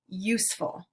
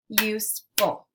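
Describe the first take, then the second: First: Said in the usual way. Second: "Useful" in two separate beats, USE, pause, FUL; split into syllables. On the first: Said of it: "Let's segment syllables now". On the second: Shown as a demonstration. Teacher clapping out syllables for learners, "Useful" segmented as use ... ful. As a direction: break "Useful" apart between use and ful. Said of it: "we'll clap out the syllables".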